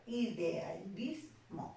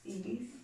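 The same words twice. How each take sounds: First: Idealismo stretched very slowly, i-de-a-lis-mo; syllable by syllable. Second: Said in the usual way. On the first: Shown as a demonstration. (Idealismo pronunciado muy lento, sílaba por sílaba) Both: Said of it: "Yo lo voy a dividir en sílabas".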